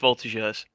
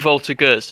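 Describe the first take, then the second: First: The g is said with a French j sound. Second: The g is said without a French j sound. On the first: The speaker calls it right. "like you say with a J" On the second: The speaker calls it wrong. "I've been saying Voltigeurs this whole time?"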